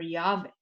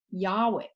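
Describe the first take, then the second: First: Yahweh said YAH-vay, with a V; v pronunciation. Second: Yahweh said YAH-way, with a W; w pronunciation. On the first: Teacher offering the other reading aloud, Yahweh with a V. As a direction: say the middle of Yahweh as a V, not W. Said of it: "more commonly is pronounced Va". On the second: Teacher reading God's name from scripture, Yahweh with a W. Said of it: "can be pronounced Wa". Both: Shown as a demonstration.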